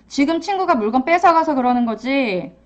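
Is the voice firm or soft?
firm. It is said firmly with a strong voice. The child is acting aggressively. "단호하게 표현하지만"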